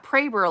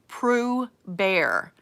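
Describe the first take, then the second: First: The first vowel is an 'ay' sound. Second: The first vowel is an 'oo' sound. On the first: This is how the name's owner says it. "like Schrader" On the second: This is the original German pronunciation. "is how it's supposed to be pronounced"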